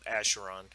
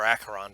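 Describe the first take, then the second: First: "Acheron" with a soft sh sound; alternate pronunciation. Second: "Acheron" with a hard k sound; alternate pronunciation. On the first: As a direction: say "Acheron" as ASH-er-on. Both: Shown as a demonstration. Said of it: "depending on how you pronounce it".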